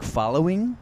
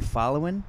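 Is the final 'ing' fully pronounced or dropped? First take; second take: fully pronounced; dropped. First: The ending is a full, careful 'ing' sound. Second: The ending is a relaxed, drawled 'in' sound. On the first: This is the formal way school demanded. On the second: This is the speaker's natural Southern way.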